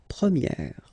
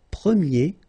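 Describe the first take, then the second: First: "première" ending in an open è, like "pre-mière"; feminine pron. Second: "premier" ending in a closed é, like "pré-mié"; masculine pron. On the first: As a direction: open the final è wide in "première". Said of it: "this E sound". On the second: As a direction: say "premier" with a tight closed é at the end. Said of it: "So it's open, this E sound". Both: Shown as a demonstration.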